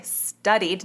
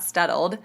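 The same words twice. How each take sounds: First: Said in the usual way. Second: Studdled with an L slipped in; the slip studdled, repeated to correct it; mispronounced studied. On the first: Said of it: "not studdled". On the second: Shown as a demonstration. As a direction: say studdled, an L in place of the clean ending. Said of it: "sorry, studied".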